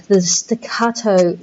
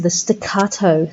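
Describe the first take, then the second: First: "the staccato" said slowly, each syllable clipped apart; slow, staccato delivery. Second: Said in the usual way. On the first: Shown as a demonstration. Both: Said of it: "that sense of the staccato".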